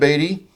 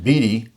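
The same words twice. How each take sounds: First: It is said like Warren Beatty's surname. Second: It is not said like Warren Beatty's surname. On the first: The speaker calls it wrong. "not Beatty as in Warren Beatty?" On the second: The speaker calls it right. "they said his name should be pronounced Beatty"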